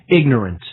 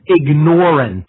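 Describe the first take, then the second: First: The stress is on the first syllable. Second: The stress is on the second syllable. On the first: The speaker calls it wrong. "I'm going to stop saying, using the pronunciation ignorant" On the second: The speaker calls it right. "Because of the emphasis of ignore"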